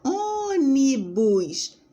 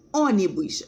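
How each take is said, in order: First: "Ônibus" slowly split into three syllables, Ô-ni-bus; syllables drawn out. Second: Said in the usual way. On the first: Shown as a demonstration. Teacher slowly breaking "Ônibus" into three syllables for the class. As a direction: stretch "Ônibus" out syllable by syllable, first syllable strongest. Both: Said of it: "a gente divide em três".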